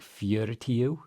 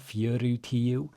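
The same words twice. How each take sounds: First: The middle vowel is reduced as in fast speech. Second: The middle vowel is pronounced fully and carefully. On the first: The speaker calls it right. "it's going to sound more like fjortiw" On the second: The speaker calls it wrong. "So it's not fjortiw. You can say it like that when you're learning"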